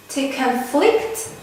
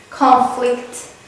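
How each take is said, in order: First: Conflict stressed on the second syllable, con-FLICT; verb stress. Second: Conflict stressed on the first syllable, CON-flict; noun stress. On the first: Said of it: "the second syllable is stressed". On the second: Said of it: "and then we have affix". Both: Shown as a demonstration.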